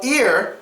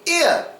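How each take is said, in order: First: The final R is pronounced. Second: The final R is dropped.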